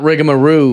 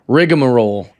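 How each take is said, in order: First: The word ends with an 'oo' sound. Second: The word ends with an 'l' sound. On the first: The speaker calls it wrong. "Not rigamaroo" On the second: The speaker calls it right. "it's rigmarole"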